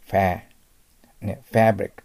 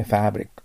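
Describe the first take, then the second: First: American English ファブリック with a strong "fa" as in cat; アメリカ英語の強いA. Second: British English ファブリック with a gentler first vowel; イギリス英語の緩やかなA. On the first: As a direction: stretch ファー with a forceful American short a. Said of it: "強く発音します". (アメリカ英語式に「ファ」を強く) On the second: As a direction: relax the "fa" of ファブリック, British style. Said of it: "緩やかになりますね". (イギリス英語風に緩やかなファブリック) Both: Shown as a demonstration.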